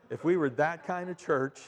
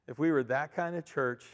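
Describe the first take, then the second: No difference in how they are said.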